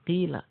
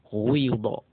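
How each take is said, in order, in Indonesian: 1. Vokal pertama adalah i biasa. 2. Vokal pertama condong ke u. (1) "Biasa harusnya kan yang sering Anda bacakan" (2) "menggabungkan dhammah dan kasrah ismam"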